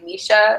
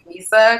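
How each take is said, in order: First: The middle consonant is a 'sh' sound. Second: The middle consonant is an 's' sound. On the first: Some friends say the name this way. "some of my friends will say like Misha ... spelled the way like M I S H A would be said" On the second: This is the speaker's own way of saying the name. "instead of like Misa"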